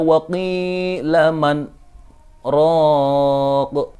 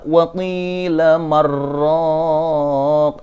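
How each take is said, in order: First: A brief breathless stop separates man and raq. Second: The n merges into a doubled r without stopping. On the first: It asks who is the healer. "Ketika kita membaca wa qila man roq" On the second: It refers to one who habitually fights. "kalau dia tidak ada saktah, maka dia akan dibaca waqila marraq"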